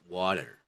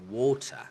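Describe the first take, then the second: First: The T sounds like a D, American style. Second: The T is pronounced clearly, British style. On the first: "In American, it's water" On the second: "in British accent. It's water"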